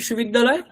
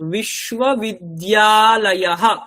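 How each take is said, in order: First: The word ends without a final breathy h. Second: The word ends with a final breathy h. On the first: This is the everyday Bengali form. "বাংলাতেও বলি আমরা" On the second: This is the Sanskrit form. "সেটাই সংস্কৃতে"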